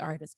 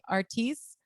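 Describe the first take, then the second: First: The i vowel is a short English i. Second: The i vowel sounds like a Spanish i. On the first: "it's probably" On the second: "I would naturally say artiste"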